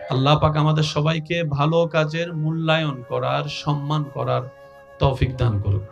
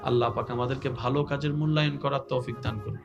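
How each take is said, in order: First: It is said more loudly. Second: It is said at normal volume.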